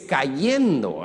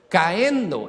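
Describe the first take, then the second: First: A y sound separates the two vowels. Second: The two vowels run together with no y sound. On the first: The speaker calls it right. "es cayendo" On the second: The speaker calls it wrong. "no es caendo"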